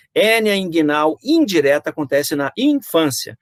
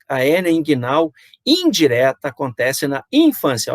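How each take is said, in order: First: Slow, higher phrase with indireta stressed; deliberate teaching intonation. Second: Said in the usual way. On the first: Shown as a demonstration. Lecturer to students, stressing indireta slowly and higher. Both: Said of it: "Olha a entonação".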